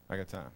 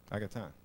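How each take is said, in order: Both takes have the same delivery.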